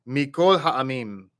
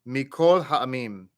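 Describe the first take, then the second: Both takes have the same delivery.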